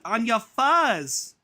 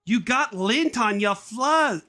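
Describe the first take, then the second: First: "fuzz" said slowly and carefully, high mum voice; self-correction. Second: "fluzz" slurred as a slip, high mum voice; misread word. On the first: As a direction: fix the word to "fuzz" slowly. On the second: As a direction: stumble into "fluzz" by mistake. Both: Acted.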